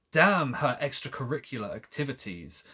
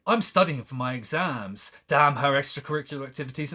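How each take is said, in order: First: Said in the usual way. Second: Fast, sarcastic mock read; mocking paraphrase. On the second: Streamer mocking the narrator's complaint with quick sarcasm. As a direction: rattle it off like a snide diary. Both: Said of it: "it's like".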